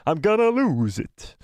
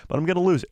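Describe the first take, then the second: First: Cracking voice. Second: Said in the usual way. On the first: Shown as a demonstration. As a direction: voice cracking on purpose. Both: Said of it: "I'm losing my voice bad today".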